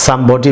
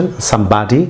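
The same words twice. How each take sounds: First: Somebody with a rounded British o, SUM-BO-DI; British pronunciation. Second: Somebody with an American ah, SUM-BAH-DI; American pronunciation. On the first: Teacher shows students the British Somebody, rounded o. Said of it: "British pronunciation". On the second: Teacher gives students the American somebody, ah sound. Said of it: "হচ্ছে American pronunciation". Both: Shown as a demonstration.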